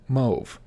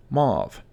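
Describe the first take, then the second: First: Mauve said mohv; common mispronunciation. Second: Mauve said mahv; correct pronunciation. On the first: Teacher showing viewers the wrong way. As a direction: say mauve rhyming with stove. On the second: Teacher showing viewers the right way. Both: Shown as a demonstration. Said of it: "often mispronounced as mauve".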